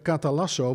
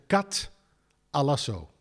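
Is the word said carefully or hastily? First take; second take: hastily; carefully. First: The word is said hastily and carelessly. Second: The word is said carefully and precisely. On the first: The speaker calls it wrong. "ik zeg in de gauwigheid even katalasso" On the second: The speaker calls it right. "maar eigenlijk moet je zeggen katalasso"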